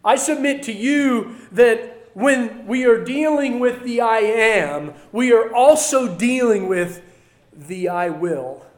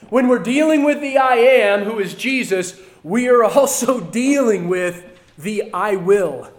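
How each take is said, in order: First: Said in the usual way. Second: Louder restatement stressing dealing and I Will; emphatic repeat. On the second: Shown as a demonstration. Preacher restating his point louder for the church. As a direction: hammer the point home the second time. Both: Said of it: "Let me say that again".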